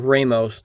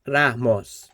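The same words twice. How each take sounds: First: The R is a smooth English-style R. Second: The R is a quick tap, like a d. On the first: The speaker calls it wrong. "not Ramos" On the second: The speaker calls it right. "it's like a d, ra"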